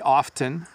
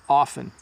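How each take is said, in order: First: The T is clearly sounded. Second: The T is softened and barely heard. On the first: "when we are saying them properly, we say often, you hear the T" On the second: "when I'm talking quickly, I say often"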